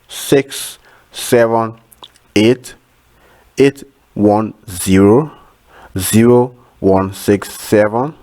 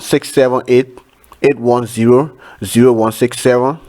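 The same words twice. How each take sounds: First: The number is said slowly. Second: The number is said fast.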